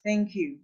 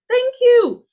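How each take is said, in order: First: Soft, unimpressed thank-you; casual acknowledgement. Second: High, loud, thrilled thank-you; excited thanks. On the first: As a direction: toss off thanks for something unimportant. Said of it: "a casual acknowledgement of something not very important". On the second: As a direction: burst out with delighted gratitude. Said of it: "it shows excitement". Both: Shown as a demonstration.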